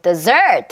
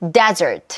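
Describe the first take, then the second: First: The stress is on the second syllable. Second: The stress is on the first syllable. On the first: Listeners understand it. The speaker calls it right. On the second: Listeners may not understand it. The speaker calls it wrong.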